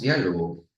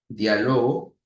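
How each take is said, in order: First: The stress is on the first syllable. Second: The stress is on the second-to-last syllable. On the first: A conversation. "La esdrújula tiene su mayor fuerza de voz en la antepenúltima sílaba" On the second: I am having a conversation. "mayor fuerza de voz en la penúltima sílaba"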